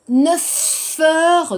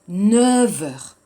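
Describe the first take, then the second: First: The f in neuf is kept as f. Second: The f in neuf is voiced as v. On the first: The speaker calls it wrong. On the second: The speaker calls it right. "le F va devenir V"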